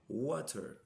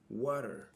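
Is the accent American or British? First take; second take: British; American. First: It is said in a British accent. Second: It is said in an American accent. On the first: "en anglais britannique" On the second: "En anglais américain"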